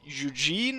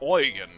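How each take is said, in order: First: The name is said with English pronunciation. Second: The name is said with German pronunciation. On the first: "as you say it in English" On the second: "pronounce it in German"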